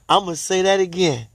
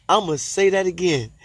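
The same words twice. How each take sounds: The two takes are said the same way.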